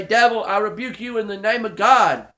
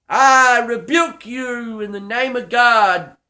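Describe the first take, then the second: First: Said in the usual way. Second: Slow, firm and louder, each word weighted; rebuke without holding back. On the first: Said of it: "be able to be Johnny on the spot and say". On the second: Shown as a demonstration. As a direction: command the devil to leave, slowly. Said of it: "oh, don't even hold back".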